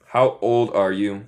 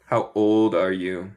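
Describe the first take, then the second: No difference in how they are said.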